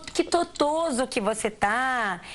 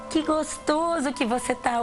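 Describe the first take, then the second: First: The word gostoso is pronounced with baby-talk sounds. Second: The word gostoso is pronounced with its normal sounds. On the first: The speaker calls it wrong. "falando igual uma criança pequena" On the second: The speaker calls it right. "falar as palavras corretamente"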